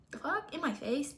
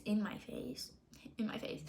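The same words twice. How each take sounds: First: Higher, rising disbelief on "In my face?"; incredulous question. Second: "In my face." breathed as a soft, voiceless whisper. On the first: Retelling the boyfriend texting in front of her: incredulous rising "In my face?". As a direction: ask "In my face?" in stunned disbelief. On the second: Retelling the boyfriend texting in front of her: stunned whisper. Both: Retold or imitated.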